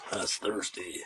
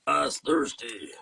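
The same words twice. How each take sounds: First: A light hint of a drawling country voice; barely into the Sling Blade character; mild Billy Bob Thornton. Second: Slow and louder, higher Sling Blade voice; Billy Bob Thornton impression. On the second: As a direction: lean into the hammed-up Sling Blade voice, slowly. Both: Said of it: "my imitation of Billy Bob Thornton".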